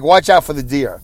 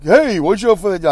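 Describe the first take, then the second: First: It is said in a serious, sober tone. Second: It is said in a lighthearted, joking tone.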